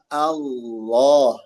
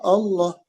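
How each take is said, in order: First: The opening hamzah is light and thin. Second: The opening hamzah is heavy and thick. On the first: The speaker calls it right. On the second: The speaker calls it wrong. "Bukan Allah"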